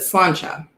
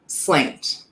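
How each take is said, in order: First: It is said as two syllables, slawn-cha. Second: It is said as one syllable, like slant. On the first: It is said the native way. The speaker calls it right. "and you pronounce it" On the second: It is read the way it is spelled. The speaker calls it wrong. "Americans would read it as it looks like it's spelled"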